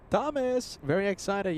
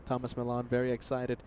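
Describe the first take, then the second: First: Higher, excited repeat. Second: Said in the usual way. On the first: Real, not acted. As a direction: echo the excitement upward. Echoing viewer's excitement.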